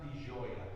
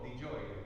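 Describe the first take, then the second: First: Gioia begins with a softer, non-J sound. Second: Gioia begins with a clear J sound. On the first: The speaker calls it wrong. "it's not di gioia. That would be street Italian" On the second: The speaker calls it right. "with a J"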